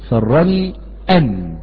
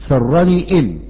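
First: The particle begins with an 'a' vowel. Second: The particle begins with an 'i' vowel. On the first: The speaker calls it right. "نفتح الهمزة ونقول أن سرني أن" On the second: The speaker calls it wrong. "ولا تقل سرني إن"

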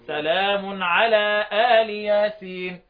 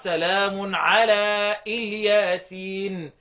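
First: The name begins with a long open 'aa' sound. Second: The name begins with a short 'i' sound. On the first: This is one traditional reading of the verse. "بالفتح الهمزة مع مدها مع كسر اللام" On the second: This is the other traditional reading of the verse. "وبقية القراء"

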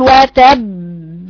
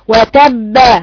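First: A gap separates the final b release. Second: The final b release becomes a full vowel. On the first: "تفصل تقول وتب" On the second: "تبالغ في القلقلة تأديها لفتحة"

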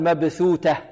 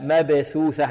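First: The first is th, the second t. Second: Both consonants are th sounds. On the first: The speaker calls it wrong. "ولا نقول مبثوتة" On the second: The speaker calls it right. "عندنا هنا ثاءان"

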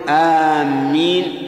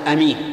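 First: The first vowel is long and the m doubled. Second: The first vowel is short and the m single. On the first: It means those who are heading toward. "آمين لا يصح، لأن آمين بمعنى قاصدي" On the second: It means trustworthy. "ولا يصح أن تقول أمين"

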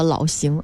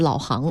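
First: The second syllable is pronounced xing. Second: The second syllable is pronounced hang. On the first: This is how the name is really read. The speaker calls it right. "行走的行" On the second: This is a misreading of the name. The speaker calls it wrong. "而不是老行"

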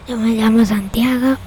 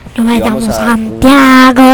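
First: The voice is farther away and sounds softer. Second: The voice is very close and sounds harsh. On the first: The speaker calls it right. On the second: The speaker calls it wrong.

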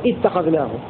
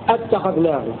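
First: The word begins with an i vowel. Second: The word begins with a glottal stop and a. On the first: It is a statement. "ويبدأ لهم بكسرها على الإخبار" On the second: It is a question. "بهمزة قطع مفتوحة ثابتة في الحالتين على الاستفهام"

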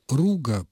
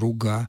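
First: The stress is on the first syllable. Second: The stress is on the last syllable. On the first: "но я произношу его как" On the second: "его произносили с ударением на последнем слове"

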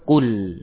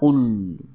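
First: The l is said with lips drawn back. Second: The l is said with lips still pushed forward. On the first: The speaker calls it right. "dikembalikan ke belakang ul ya" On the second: The speaker calls it wrong. "jangan di depan ul ya"

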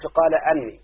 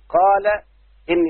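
First: The second word begins with an 'a' vowel. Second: The second word begins with an 'i' vowel. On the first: The speaker calls it wrong. "ما تقولش" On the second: The speaker calls it right. "الموضع الثالث بعد القول"

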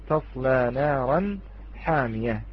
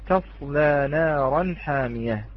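The two takes are said the same way.

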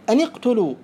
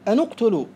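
First: The linking vowel before the cluster is i. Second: The linking vowel before the cluster is u. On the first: "مخير بين الكسر والضم" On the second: "مخير بين الكسر والضم"

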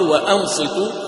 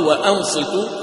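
First: A glottal stop is pronounced before the vowel. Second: A glottal stop is pronounced before the vowel.

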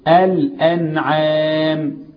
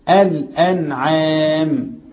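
No difference in how they are said.

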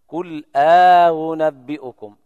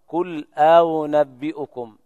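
First: A long vowel separates the hamzas; the second is softened. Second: No long vowel separates them; the second is softened. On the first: "يقرأ قالون وأبي جعفر وأبي عمرو بإدخال ألف الفصل بين الهمزتين" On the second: "وابن كثير وورش ورويس يقرؤون قل أنبئكم"

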